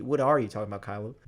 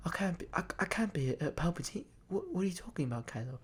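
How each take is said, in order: First: "are" stressed in his usual low voice. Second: Small, high, much softer voice; hushed disbelief. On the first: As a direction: lean on "are" in a mild, puzzled echo. Own echo agreeing with Rey. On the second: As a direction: imitate stunned denial, barely audible. Acting out Rey's stunned disbelief. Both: Retold or imitated.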